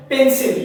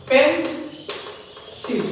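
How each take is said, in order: First: Said in the usual way. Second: "pencil" slowly broken into পেন and সিল; long pause inside "pencil" after পেন; split into syllables. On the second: Shown as a demonstration. Teacher showing a two-syllable word, "pencil" split slowly. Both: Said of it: "pencil ও ডাইসিলেবলিক word".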